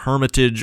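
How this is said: The word is said with an English pronunciation. This is how native English speakers say it. "if you're a native English speaker, you probably call this wonder something like uh, Hermitage"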